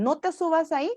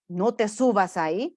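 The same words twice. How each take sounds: First: Parent's warning pitched much higher; high nagging parent. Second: A parent's warning, given as the negative example. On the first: Mocking the fussy parent, high nagging warning. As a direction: nag it up high like a fussing parent. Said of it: "Evitemos el". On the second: Parent warning child off the climb, mild scolding. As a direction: lightly play the parent saying it. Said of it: "Evitemos los mensajes negativos". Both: Shown as a demonstration.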